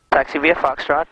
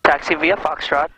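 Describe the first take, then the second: No difference in how they are said.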